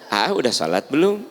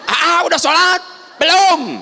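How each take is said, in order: First: It is said softly and gently. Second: It is said very loudly and harshly. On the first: The mother is asking kindly. The speaker calls it right. "lamun ibu nanyanya dengan lembut" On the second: The mother is angry and snapping at the child. The speaker calls it wrong. "ya malah langsung salapan setengah"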